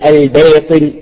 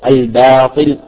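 First: The vowel after b leans toward an e sound. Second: The vowel after b is a medium open a. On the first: The speaker calls it wrong. "واحذر من الإمالة، تقول الباطل، لا" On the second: The speaker calls it right. "بشكل متوسط"

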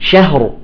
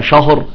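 First: The sh sound is light and thin. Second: The sh sound is heavy and thick. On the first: The speaker calls it right. "نقول شهر" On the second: The speaker calls it wrong. "وليس شهر شا، لا، الشين مرققة"

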